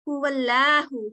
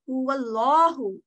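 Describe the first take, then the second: First: The L sound is thin and light. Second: The L sound is thick and heavy. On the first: The speaker calls it wrong. "she didn't say huwallahu" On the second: The speaker calls it right. "She made that thick sounding lam"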